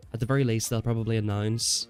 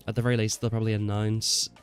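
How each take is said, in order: Both takes have the same delivery.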